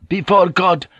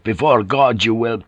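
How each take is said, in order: First: High, loud cutting interruption; erupting anger. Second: Said in the usual way. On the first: A narrator's reading. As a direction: snap it back hotly. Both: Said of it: "Joseph erupted".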